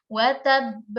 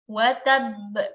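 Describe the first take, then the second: First: The first b is held, the second bounced. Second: The same.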